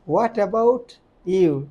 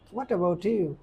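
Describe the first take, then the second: First: Each word is said separately, without linking. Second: The words run together with linked sounds. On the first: This is how local learners say it. The speaker calls it wrong. "আমরা বলতেছি হোয়াট, হো, আট, অ্যাবাউট" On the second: This is how native speakers say it. The speaker calls it right. "আর ওরা বলতেছে দেখেন"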